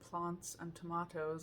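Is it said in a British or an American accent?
British. It is said in a British accent.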